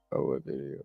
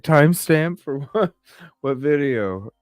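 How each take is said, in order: First: Whispered aside to herself. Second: High, louder puzzled questions; mock bafflement, pitched up; confused. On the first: Retold or imitated. Realising which video a viewer meant, whispered. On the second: Retelling confusion at a viewer's request, puzzled. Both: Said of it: "I just was like".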